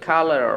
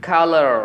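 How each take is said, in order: Both takes have the same delivery.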